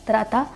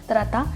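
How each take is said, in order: The two takes are said the same way.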